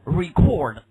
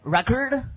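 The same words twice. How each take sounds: First: Record as the verb, ree-CORD; second-syllable stress. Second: Record as the noun, RECK-ord; first-syllable stress. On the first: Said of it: "还可以呢". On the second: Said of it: "这个怎么读". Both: Shown as a demonstration.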